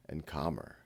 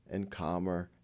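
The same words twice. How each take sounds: The two takes are said the same way.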